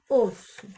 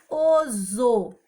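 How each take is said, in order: First: The middle consonant is a hissing s sound. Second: The middle consonant is a buzzing z sound. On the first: The speaker calls it right. "para fazer o som forte do S" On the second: The speaker calls it wrong. "Esse S vai ficar com o som do Z"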